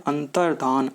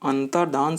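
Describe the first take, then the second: Both takes have the same delivery.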